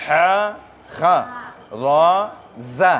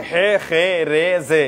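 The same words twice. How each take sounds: First: হা, খা, জা each ending in a clear a sound; correct letter names. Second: হে, খে, রে, জে with the e ending; wrong letter names. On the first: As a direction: say হা, খা, জা with the a vowel. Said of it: "এরকম, ঠিক আছে". (সঠিক উচ্চারণে হা, খা, জা) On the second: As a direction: read হে, খে, রে, জে the wrong way on purpose. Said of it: "এরকম উচ্চারণটা ভুল". (ভুল উচ্চারণে হে, খে, রে, জে) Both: Shown as a demonstration.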